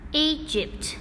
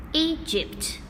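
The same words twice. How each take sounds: The two takes are said the same way.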